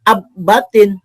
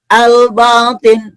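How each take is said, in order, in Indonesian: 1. Bunyi L menyatu dengan B yang ganda. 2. Bunyi L dibaca jelas sebelum B. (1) "bukan ab-batin" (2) "bacanya al-batin"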